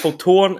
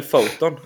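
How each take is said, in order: First: FOTON with long stressed second syllable, foh-TOON; Swedish end stress. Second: FOTON as English "photon", FOH-ton; English first-syllable stress. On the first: Host checking the company name with guest, foton stressed on the last syllable. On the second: Host offering the other name to guest, foton stressed on the first syllable. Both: Shown as a demonstration. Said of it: "tyckte att betoningen var lite annorlunda".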